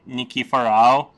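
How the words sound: The surname is said with American pronunciation. "in America they just say Nikiforov"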